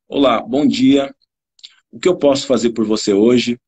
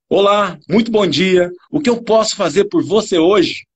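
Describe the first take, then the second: First: The greeting sounds flat and cold. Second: The greeting sounds lively and warm.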